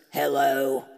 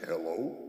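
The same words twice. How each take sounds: First: Low, loud mock-male hello; man answering phone. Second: Softer hello with a questioning rise; corrected hello. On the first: Guy answers the call from Bob's phone, low man's hello. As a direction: imitate a man picking up, deep and abrupt. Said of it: "and a guy answers". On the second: Shown as a demonstration. Man corrects how he answered, softer questioning hello. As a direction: pick up the phone softly, tune lifting at the end. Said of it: "No, it was like".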